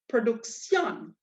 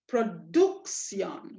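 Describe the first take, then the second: First: The stress is moved off the middle syllable. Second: The stress is on the middle syllable. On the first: The written accent moves the stress. "I want production" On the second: This is where the default rule puts the stress. "We should be putting the stress on the duk"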